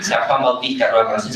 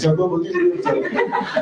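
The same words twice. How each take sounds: First: Said in the usual way. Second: Much higher, squeaky parody dissolving into a laugh; sarcastic mockery. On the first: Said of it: "el padre Miguel López diciendo". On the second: Demon mocking the priest's prayer, squeaky jeering parody. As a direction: jeer at the litany like a taunting demon. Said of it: "son chistes sarcásticos".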